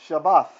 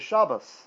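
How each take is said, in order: First: The word ends with a th sound. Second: The word ends with an s sound. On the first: This follows the older pronunciation kept in old translations. "this was a T H, Th, Th. That's why English calls Shabbat Shabbath" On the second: "this is a S"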